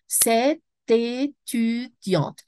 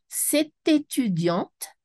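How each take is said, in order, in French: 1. La phrase est découpée en syllabes séparées. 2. La phrase est dite couramment, sans pause.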